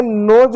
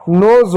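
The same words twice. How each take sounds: First: नोज ending in a hard j; wrong j ending. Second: नोज ending in a buzzing z, like nose; correct z ending. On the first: (नोज के अंत में ज, ग़लत) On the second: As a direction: end नोज on a clear z. (नोज के अंत में ज़, सही) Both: Shown as a demonstration. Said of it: "जैसे नोज नहीं होता है".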